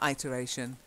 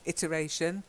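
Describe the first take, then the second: First: The first syllable sounds like 'eye'. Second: The first syllable sounds like 'it'. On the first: The speaker calls it wrong. "Not iteration" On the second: The speaker calls it right. "It's it. So iteration"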